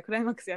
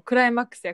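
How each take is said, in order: First: Said in the usual way. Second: Loud, hyped-up cry of climax; retold excited exclamation; excited cheer. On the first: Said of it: "って言いながら". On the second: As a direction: shout it like the grand finale. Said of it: "って言いながらそれ食べて".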